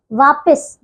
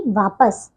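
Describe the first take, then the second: First: वापस said as "vaapis"; wrong middle vowel. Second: वापस said as "vaapas"; correct middle vowel. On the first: Teacher showing pupils the error, वापस as "vaapis". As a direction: put i or e after the p in वापस. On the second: Teacher correcting pupils, वापस as "vaapas". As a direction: use a short a after p in वापस. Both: Shown as a demonstration. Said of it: "वापस नहीं".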